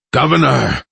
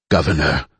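First: Higher, louder desperate cry; shouting. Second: Low raspy call; rasped. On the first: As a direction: call out to her urgently. Desperate call to the governor. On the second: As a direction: rasp the word out weakly. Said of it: "Rajka rasped". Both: Acted.

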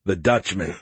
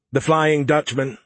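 First: Said in the usual way. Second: Flying Dutchman said slowly and firmly; stress on Flying Dutchman. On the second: Acted. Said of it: "Skippy corrected me".

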